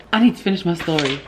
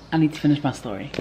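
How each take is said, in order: First: Louder, emphatic repeat; louder insistent repeat to the camera; firmer, louder repeat. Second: Said in the usual way. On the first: Real, not acted. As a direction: insist on finishing, a bit louder.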